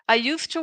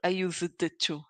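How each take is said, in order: First: No separate D sound is heard before 'to'. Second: A distinct D sound is pronounced before 'to'. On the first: The speaker calls it right. "We don't pronounce the D when you say I used to" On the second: The speaker calls it wrong. "we try to say the letter D"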